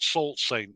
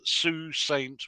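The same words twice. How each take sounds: First: The name is said the way it is spelled. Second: The name is said the local Canadian way. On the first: "it seems to be spelled" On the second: "A Canadian gentleman told me it's"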